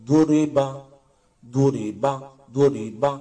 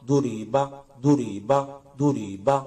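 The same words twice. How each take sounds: No difference in how they are said.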